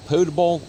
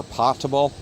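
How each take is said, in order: First: "potable" with a long o; long-o pronunciation. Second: "potable" with a short o; short-o pronunciation. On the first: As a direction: say "potable" as POH-tuh-bul. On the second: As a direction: say "potable" as POT-uh-bul, like pot. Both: Shown as a demonstration. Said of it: "depending on how you want to say it".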